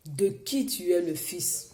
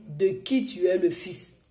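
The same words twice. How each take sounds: The two takes are said the same way.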